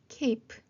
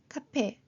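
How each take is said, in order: First: The word ends on the p sound. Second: A vowel sound is added after the final p. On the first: The speaker calls it right. "프까지만 소리 나고" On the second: The speaker calls it wrong. "카페, 비테, 호페 이게 아니라"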